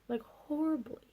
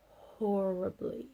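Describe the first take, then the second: First: "horribly" pitched high and falling; stress on horribly. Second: "horribly" said slowly with a rising end; drawn-out horribly. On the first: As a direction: punch "horribly" high, then drop. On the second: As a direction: stretch out "horribly" and let it rise. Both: Shown as a demonstration.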